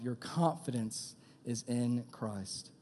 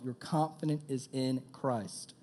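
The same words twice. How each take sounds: First: Slow, stressed on in; slow emphatic repeat. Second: Said in the usual way. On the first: Shown as a demonstration. Preacher repeating the key line slowly for the youth. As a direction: lean on every word. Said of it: "slow repeat for emphasis". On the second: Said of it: "first plain take".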